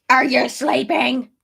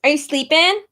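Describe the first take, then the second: First: Loud, slow, put-on goofy voice; playful, drawn-out, louder nudge to the baby; silly baby-talk voice. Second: Louder, higher, rising at "sleeping". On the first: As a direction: stretch it out in a daft voice for the baby. Repeats it sillily to the baby. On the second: Real, not acted. Asking her unborn baby.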